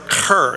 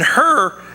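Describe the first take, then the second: First: The first sound is a harsh throaty rasp. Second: The first sound is a plain, soft h.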